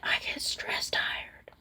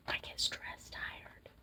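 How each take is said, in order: First: Soft breathy whisper. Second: Barely audible fading whisper; faint whisper. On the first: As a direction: whisper it, tired and drained. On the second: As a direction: let it fade to almost nothing. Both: Real, not acted. Repeats tired phrase under breath.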